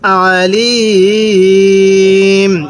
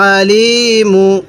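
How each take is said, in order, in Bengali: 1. শব্দটি ব্যঞ্জনবর্ণ m দিয়ে শেষ হয়। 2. শব্দটি ছোট u স্বরধ্বনি দিয়ে শেষ হয়। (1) "যদি আমরা এখন ওয়াকফ করি তাহলে আলিম, তখন মিমের উপর যে পেশটি আছে আমরা এই পেশটিকে বাদ দিয়ে দিব" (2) "মিম পেশ মু"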